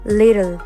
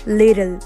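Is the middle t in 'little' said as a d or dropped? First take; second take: d sound; d sound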